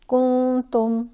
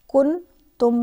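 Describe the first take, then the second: First: The n is hidden and nasalized, held longer. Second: The n is pronounced as a clear n. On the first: The speaker calls it right. "बल्कि कुन तुम" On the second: The speaker calls it wrong. "कुन तुम नहीं है"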